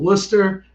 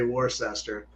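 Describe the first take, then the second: First: It is said the Boston-area way. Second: It is said the local Pennsylvania way.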